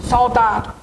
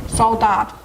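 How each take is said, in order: Both takes have the same delivery.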